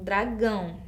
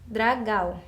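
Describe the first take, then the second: First: "dragão" with a nasal -ão at the end. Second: "dragal" ending in an oral -gau, without nasality; missing nasal sound. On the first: Teacher gives the correct form, "dragão" ending in a nasal ão. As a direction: say "dragão" as dra-GÃO. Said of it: "esse som nasal". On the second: Teacher reads the word without its sign, "dragal" with no nasal ending. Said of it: "Como que fica essa palavra na escrita". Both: Shown as a demonstration.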